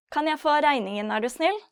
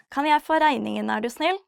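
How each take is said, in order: Both takes have the same delivery.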